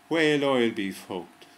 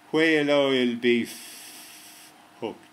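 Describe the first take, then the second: First: There is no long pause before the last word. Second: There is a long pause before the last word.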